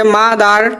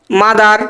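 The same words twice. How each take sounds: First: mother divided into মা and দার; two syllables. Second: Said in the usual way. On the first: Shown as a demonstration. Teacher showing two sounds, mother syllable by syllable. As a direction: stretch mother into two even beats. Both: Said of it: "দুটো উচ্চারণ হচ্ছে".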